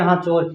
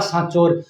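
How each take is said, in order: First: The word begins with an h sound. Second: The word begins with an s sound.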